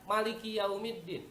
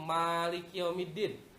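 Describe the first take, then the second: First: The first vowel of Maliki is kept short. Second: The first vowel of Maliki is drawn out long.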